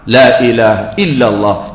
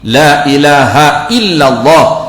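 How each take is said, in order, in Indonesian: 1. Diucapkan cepat, bunyi 'h' dihilangkan. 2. Diucapkan dengan jelas, bunyi 'h' dibunyikan. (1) "Ada orang dia nak cepat ... ha tak ada, i terus" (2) "Kena jelas"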